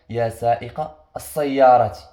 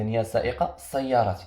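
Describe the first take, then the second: First: يا سائق السيارة said slowly and a bit louder, leaning on السيارة; slow, stressed model phrase with السيارة hit hard; emphasized phrase. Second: Said in the usual way. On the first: Shown as a demonstration. Teacher models the phrase for students, slow and stressed. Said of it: "كنشوفوا الكلمة اللي موراها". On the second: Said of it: "إذا".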